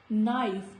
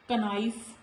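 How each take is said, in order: First: The word starts directly with the N sound. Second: The K sound is pronounced before the N. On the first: The speaker calls it right. "letter K is silent" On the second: The speaker calls it wrong. "not knife"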